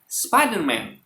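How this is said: It is said with an English accent. "tapi Spiderman"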